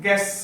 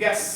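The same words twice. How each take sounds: The two takes are said the same way.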